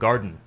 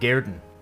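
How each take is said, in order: First: It has an English vowel and a clear d. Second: It has a Scots vowel and a glottal stop. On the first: "distinct in pronunciation from garden" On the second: "non-English spellings, like some and garden"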